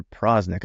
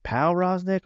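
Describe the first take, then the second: First: Prosnick with "pr" run together, no "pow"; contracted name pronunciation. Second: Powroznik with a full "pow" at the front; two-syllable start on Powroznik. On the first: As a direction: say Prosnick in two syllables, PROZ-nik. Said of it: "Is it Powroznik or Prosnick". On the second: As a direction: say Powroznik as pow-ROZ-nik, slowly. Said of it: "emphasis on the wrong syllable". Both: Shown as a demonstration.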